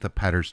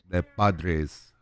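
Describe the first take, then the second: First: The name sounds like 'Patters', with a t sound. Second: The name sounds like 'Padres', with d and r. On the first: The speaker calls it wrong. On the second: The speaker calls it right.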